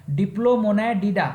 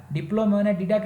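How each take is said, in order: First: Diplomonadida slowly, in distinct parts; careful pronunciation. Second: Said in the usual way. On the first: Shown as a demonstration. Teacher naming an order for students, careful pronunciation. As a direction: sound out Diplomonadida piece by piece. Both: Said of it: "pronunciation पे ध्यान दीजिएगा".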